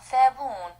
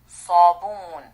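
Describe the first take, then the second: First: The first consonant is a plain, light s. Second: The first consonant is a heavy, emphatic s. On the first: The speaker calls it wrong. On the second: The speaker calls it right.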